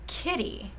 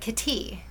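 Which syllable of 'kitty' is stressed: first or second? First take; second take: first; second. First: The stress is on the first syllable. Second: The stress is on the second syllable. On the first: The speaker calls it right. "with that emphasis on the first syllable" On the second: The speaker calls it wrong. "with the emphasis on the wrong syllable"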